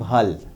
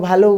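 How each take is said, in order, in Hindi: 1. शब्द व्यंजन पर खत्म होता है, अंत में कोई स्वर नहीं है। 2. शब्द का पहला स्वर लंबा है और अंत 'o' से होता है। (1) "जो लोग पूर्वी क्षेत्र के हैं वो कहते हैं भल" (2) "जो लोग बंगला बोलते हैं वो भालो बोलते हैं"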